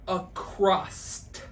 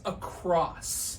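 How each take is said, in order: First: The word ends with an added t sound. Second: The word ends cleanly on the s sound. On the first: The speaker calls it wrong. "When people say" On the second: The speaker calls it right. "the word is across"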